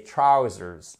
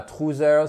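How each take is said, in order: First: Trousers said slowly as "TRAU-zerz"; OW diphthong in trousers, first syllable stressed; correct trousers. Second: Trousers said as "troo-zeur"; French-style OO vowel in trousers; mispronounced trousers. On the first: Teacher corrects the class, slow trousers with an OW sound. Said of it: "c'est trousers". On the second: Teacher shows the mistake to avoid, trousers as "troo-zeur". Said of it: "Et c'est pas trousers". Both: Shown as a demonstration.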